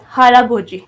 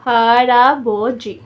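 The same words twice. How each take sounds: First: Said in the usual way. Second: हराबोजी slow and loud, syllables drawn out; teacher's slow, emphatic model of हराबोजी; slow demonstration. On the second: Shown as a demonstration. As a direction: stretch हराबोजी out as ha-ra-bo-ji. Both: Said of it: "यहाँ पे हर लगा दें साथ".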